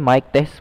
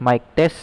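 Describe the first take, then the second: No difference in how they are said.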